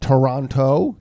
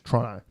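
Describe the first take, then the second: First: It is pronounced the American way, every sound full. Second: It is pronounced the Australian way, sounds clipped. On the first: The speaker calls it wrong. "for Americans, it's not Toronto. That's not how you pronounce it in Australia" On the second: The speaker calls it right. "It's Toronto"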